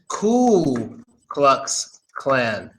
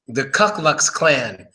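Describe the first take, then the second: First: The first word ends in an oo vowel. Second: The first word ends in a k sound. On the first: The speaker calls it right. "it's simple. It's just Ku Klux Klan" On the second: The speaker calls it wrong. "What? No"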